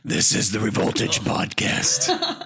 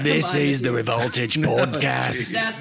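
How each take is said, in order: First: It is said in a deep, gravelly growl. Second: It is said in an Australian accent. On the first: "I'd rather you do your Bale Batman voice" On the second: "try the Bale Australian accent"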